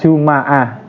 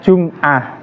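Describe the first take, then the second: First: The m is followed by an a vowel. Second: The m is followed by no vowel. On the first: "di fathah" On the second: "disukun mimnya"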